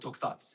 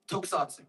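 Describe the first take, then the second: First: The final S is cut short, vowel dropped. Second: The final vowel after the S is fully said.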